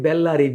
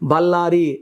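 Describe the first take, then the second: First: The first vowel sounds like 'e'. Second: The first vowel sounds like 'a'. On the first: This is how the name is written. "రాసేది బెల్లారి" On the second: This is how people say the name.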